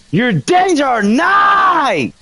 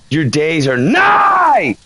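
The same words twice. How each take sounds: First: Very slow, higher, hammed-up doom shout; higher dramatic proclamation. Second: Dramatic proclamation. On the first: Ghost hunter repeating his taunt at the ghost, higher theatrical shout. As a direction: stretch it out and lift it into a theatrical cry. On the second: Pretend. Ghost hunter taunting the ghost Jay Walker, mock doom proclamation. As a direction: draw out every word like a prophet of doom.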